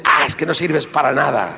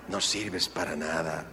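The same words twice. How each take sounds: First: Scornful husband. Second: Much softer, lower "No sirves para nada"; the wounding words, repeated softly; quiet hurt echo. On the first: Retold or imitated. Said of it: "empieza la agresividad". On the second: Shown as a demonstration. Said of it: "repeated echo".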